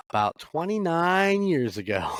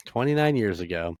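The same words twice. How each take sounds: First: Pitched way up in disbelief; amazed emphasis. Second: Said in the usual way. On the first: Real, not acted. Telling listeners he met the actor, amazed by the years. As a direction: marvel at how long ago it was. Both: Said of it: "I know, right?".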